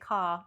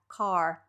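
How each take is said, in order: First: The final R fades away almost to nothing. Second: The final R is clearly and distinctly pronounced. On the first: "when we end words with the R, it's not as heavy" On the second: "if I was going to say it in an American accent"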